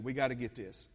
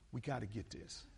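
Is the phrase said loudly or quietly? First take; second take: loudly; quietly. First: The phrase is said loudly, close to shouting. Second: The phrase is said at a calmer, quieter volume.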